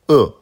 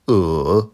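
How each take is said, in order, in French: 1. Le ton chute brusquement de haut en bas. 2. Le ton descend bas, puis remonte. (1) "quatrième ton" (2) "troisième ton"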